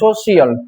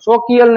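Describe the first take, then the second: First: The middle consonant is a soft sh sound. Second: The middle consonant is a hard k sound. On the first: The speaker calls it right. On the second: The speaker calls it wrong.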